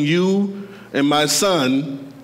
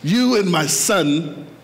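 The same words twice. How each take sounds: First: The voice sounds like a famous actor's impression. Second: The voice sounds like the speaker's own natural voice. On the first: "I sounded like Denzel Washington when I said that" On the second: "I didn't sound like him that time"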